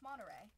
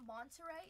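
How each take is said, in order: First: The T sound is dropped. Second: The T sound is clearly pronounced. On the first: The speaker calls it right. "Californians don't like to say the, the T in words" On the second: The speaker calls it wrong. "it's not Monterey"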